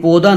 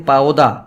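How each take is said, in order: First: پودا with one pure long o; غلط تلفظ. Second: پاودا gliding from short 'a' into 'o'; دوہری آواز. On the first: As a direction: say پودا with a plain single 'o', no glide. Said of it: "یہ پودا نہیں ہے". (پودا کو سادہ 'او' کی ایک آواز سے) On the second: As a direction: say پاودا with an 'au' diphthong. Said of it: "ہم کہتے ہیں پاودا". (پاودا میں 'ا' سے 'او' تک پھسلتی دوہری آواز) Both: Shown as a demonstration.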